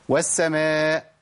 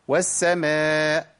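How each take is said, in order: No difference in how they are said.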